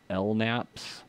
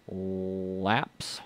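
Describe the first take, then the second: First: It is said with an N sound. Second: It is said without an N sound. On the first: "Maybe you want to call it L NAPS" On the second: "I'm not pronouncing the N there"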